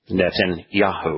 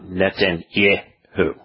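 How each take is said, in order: First: The syllable before 'hu' has an 'ah' vowel. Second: The syllable before 'hu' has an 'eh' vowel. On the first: The speaker calls it right. "the name that he is mispronouncing as Yeh is actually in his name" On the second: The speaker calls it wrong. "It's not"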